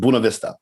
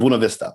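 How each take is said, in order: First: It is said the way locals say it. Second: It is said the way locals say it.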